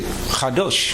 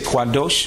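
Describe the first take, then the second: First: It begins without a KW sound. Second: It begins with a KW sound. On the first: This is how another group says it. "They don't pronounce the Kwa sound" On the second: This is how one group says it. "some people say Kwadosh"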